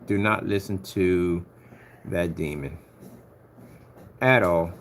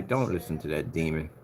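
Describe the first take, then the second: First: Slow, emphatic warning. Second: Said in the usual way. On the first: Real, not acted. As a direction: DO NOT said slowly and deliberately. Repeats the warning more deliberately.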